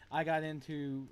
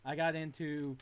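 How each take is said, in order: Both takes have the same delivery.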